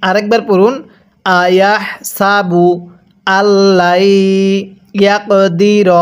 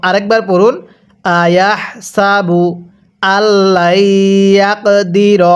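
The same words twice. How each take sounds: Both takes have the same delivery.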